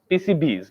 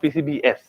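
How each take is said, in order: First: The S is a short plural ending. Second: The S is said as its own letter. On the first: The speaker calls it right. "This is this is plural form of P C B" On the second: The speaker calls it wrong. "not P C B S"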